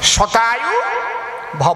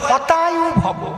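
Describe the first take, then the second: First: The first word begins with an 'sh' sound. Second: The first word begins with an 'h' sound. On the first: May you live a hundred years. The speaker calls it right. "এর সংস্কৃত কি? শতায়ু ভব।" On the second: May your life be destroyed. The speaker calls it wrong. "ওনার তো স উচ্চারণ হয় না, উনি কয় হতায়ু ভব।"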